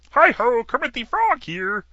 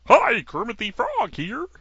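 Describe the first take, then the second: First: A cheerful frog puppet hello, pitched up high; Kermit the Frog impression. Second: High, slow frog puppet voice; a frog puppet greeting, voice pushed up high; Kermit the Frog impression. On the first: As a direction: frog puppet greeting the audience. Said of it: "I just can't do it the way I used to". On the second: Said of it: "I can't do Kermit very well".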